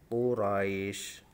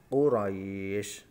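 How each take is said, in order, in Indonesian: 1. Vokal panjang ditahan selama dua ketukan. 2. Vokal panjang ditahan selama empat ketukan. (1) "Sekarang yang coba yang satu alif" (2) "dua alif contoh"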